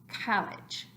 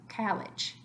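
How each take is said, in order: No difference in how they are said.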